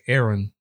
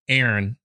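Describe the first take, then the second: First: The second syllable has a clear o vowel. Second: The second syllable is squeezed, sounding like airn. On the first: "I say Aaron with the O" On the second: "they say more like A-I-R-N"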